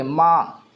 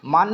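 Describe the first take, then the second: First: "माँ" with the n melted into a nasal vowel, no n sound; nasal n reading. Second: "मान" said with a full clear n at the end; wrong reading. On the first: Teacher gives students the right reading: "माँ" with a nasal vowel. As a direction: say "माँ" as a long nasal aa with no closing n. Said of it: "जिसकी आवाज़ नाक से निकले". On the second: Teacher shows students the wrong reading: "मान" with a full n. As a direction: read "मान" with a plain final n, as the wrong way. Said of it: "मान नहीं पढ़ेंगे". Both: Shown as a demonstration.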